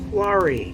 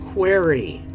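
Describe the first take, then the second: First: The first vowel sounds like 'car'. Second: The first vowel sounds like 'ear'. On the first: The speaker calls it right. "It's quarry" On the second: The speaker calls it wrong. "not query"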